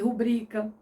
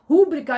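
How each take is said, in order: First: The stress is on the second syllable, bri. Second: The stress is on the first syllable, ru. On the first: The speaker calls it right. "ao invés de rubrica ... mas não é" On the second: The speaker calls it wrong. "as pessoas preferem falar rúbrica"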